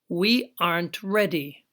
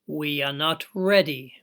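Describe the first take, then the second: First: The verb and not are joined into a contraction. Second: Every word is said fully and separately.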